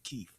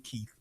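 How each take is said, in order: First: The name has a casual dialect pronunciation. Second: The name has its standard pronunciation. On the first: This is how the speaker's community says it. "but we pronounce it Keith" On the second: This is the name's official form. "It's really Keith"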